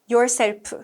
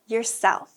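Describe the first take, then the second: First: The stress is on the first syllable. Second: The stress is on the second syllable. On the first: The speaker calls it wrong. "Be careful not to say yourself" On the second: The speaker calls it right. "Yourself is two syllables with the stress on the second one"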